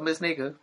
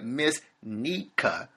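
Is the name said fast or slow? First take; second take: fast; slow. First: The name is said quickly, sounds running together. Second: The name is said slowly, sounds kept apart. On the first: The speaker calls it wrong. "I gotta say that slower" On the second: The speaker calls it right. "So I gotta start saying"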